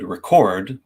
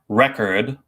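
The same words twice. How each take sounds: First: The stress is on the second syllable. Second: The stress is on the first syllable. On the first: "where the chord is stressed" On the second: "where the re is stressed"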